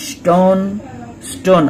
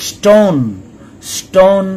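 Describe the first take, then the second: Both takes have the same delivery.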